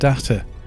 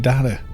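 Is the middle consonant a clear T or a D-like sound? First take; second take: clear T; D-like. First: The middle consonant is a clear T sound. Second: The middle consonant sounds almost like a D.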